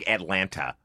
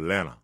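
First: The word is said in a plain standard way. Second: The word is said in a local Atlanta accent. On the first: "you don't say Atlanta" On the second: "You go Atlanta"

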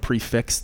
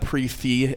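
First: The word ends in a 'ks' sound. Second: The word ends in an open 'ee' sound. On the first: "instead of a prefix" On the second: "people calling it a pre-fee"

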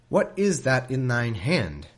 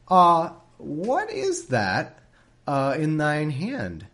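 First: It is read plainly, as straight narration. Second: It is said teasingly, like a magician's hesitant setup.

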